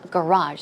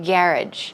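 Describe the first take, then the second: First: The word is said in an American accent. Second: The word is said in a British accent. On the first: "here we have garage" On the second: "in British English, I heard they often say garage"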